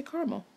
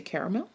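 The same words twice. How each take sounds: First: "caramel" said car-mel; "caramel" squeezed into two syllables. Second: "caramel" said care-a-mel; "caramel" with all three syllables sounded. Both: Shown as a demonstration. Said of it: "Do you say caramel or do you say caramel".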